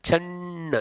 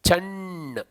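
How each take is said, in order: No difference in how they are said.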